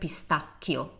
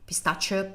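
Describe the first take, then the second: First: The middle consonant is a hard k sound. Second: The middle consonant is a soft sh sound.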